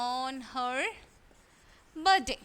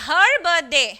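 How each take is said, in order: First: Said in the usual way. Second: Her punched out loud and falling; stress on her. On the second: Shown as a demonstration. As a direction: hit her hard to point it out. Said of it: "ഇവിടെ her എന്തായിട്ടാണ് use ചെയ്തിരിക്കുന്നത്?".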